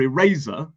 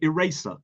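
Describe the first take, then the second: First: The middle consonant is a voiced z sound. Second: The middle consonant is an unvoiced s sound. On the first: This is the British way of saying it. "In British English, we would say" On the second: This is the American way of saying it. "they would say eraser"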